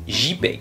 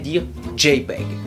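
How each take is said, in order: First: The J is said the French way. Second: The J is said the English way. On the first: "ça se prononce JPEG" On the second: "En anglais, la lettre J se dit J"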